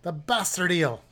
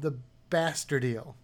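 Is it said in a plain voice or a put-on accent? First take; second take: put-on accent; plain voice. First: It is said in a put-on accent. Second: It is said in a plain, normal voice.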